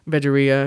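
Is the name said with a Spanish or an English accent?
English. It is said with an anglicized English pronunciation. "if you don't get that accent thing"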